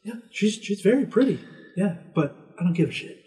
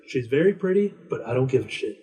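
First: High, put-on old man's voice; hammed-up old man waving off a pushy host; grumpy old man. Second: A hint of an old man who can't be bothered; grumpy old man. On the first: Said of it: "And he's like". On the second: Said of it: "he's like".

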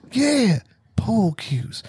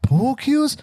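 First: POOL CUES high and slow, falling; stretched, high "Yeah, pool cues"; drawn-out confirmation. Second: POOL CUES as a high rising question; hammed-up puzzled "Pool cues?"; incredulous echo. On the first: Retold or imitated. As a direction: confirm "pool cues" slowly, landing downward. Acting the confirming answer. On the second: Acting a puzzled listener's question.

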